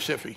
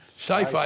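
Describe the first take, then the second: First: The first vowel is short, like 'sip'. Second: The first vowel is long, like 'sigh'. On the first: This is the name actually used. "but that was taken" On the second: This follows the normal spelling rule. "if it's a single consonant, the vowel is long"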